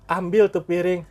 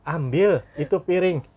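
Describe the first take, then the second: First: High, loud mock command; a firmer parent, lightly acted; old-time parent's order. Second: High, loud, slow mock command; voiced parent's order. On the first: Parent of the old days telling child to fetch a plate, mock command. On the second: Parent telling today's child to fetch a plate, mock command. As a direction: order a child about, lightly acted.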